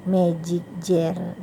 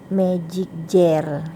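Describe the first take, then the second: Both takes have the same delivery.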